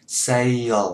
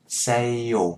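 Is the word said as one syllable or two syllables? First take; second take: two syllables; two syllables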